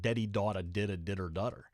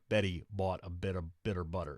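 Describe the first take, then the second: First: The initial consonants sound like a D. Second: The initial consonants sound like a clear B. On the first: The speaker calls it wrong. "It's not Deddy daughter did a ditter dutter" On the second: The speaker calls it right. "it sounds like Betty bought a bit of bitter butter"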